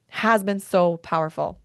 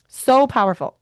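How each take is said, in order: First: Said in the usual way. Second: Higher and louder burst; a sudden loud, high echo; emphatic repeat. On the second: Real, not acted. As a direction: blurt it out, full of feeling.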